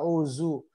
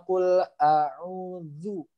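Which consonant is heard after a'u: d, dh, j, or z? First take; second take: z; dh. First: The middle consonant is a z sound. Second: The middle consonant is a soft dh sound. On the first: The speaker calls it wrong. "Apalagi nyasar ke huruf za" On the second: The speaker calls it right. "ujung lidah bertemu ujung gigi seri atas"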